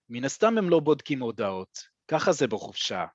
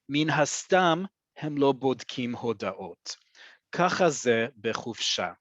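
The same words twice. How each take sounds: First: It is said at natural speed. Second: It is said slowly.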